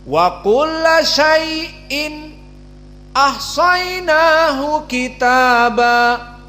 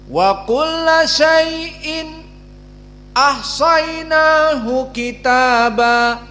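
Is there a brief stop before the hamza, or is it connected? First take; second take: stop; stop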